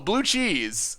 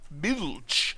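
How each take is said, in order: First: The name is said as two syllables, blue cheese. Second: The name is said as one syllable, bulch. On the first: The speaker calls it right. "It's pronounced, oh" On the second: The speaker calls it wrong. "I should have read the, the comment before trying to pronounce it"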